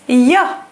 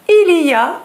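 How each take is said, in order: First: The words are squeezed into one syllable. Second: All three words are said in full. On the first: "becomes ya" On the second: "Il y a becomes ya"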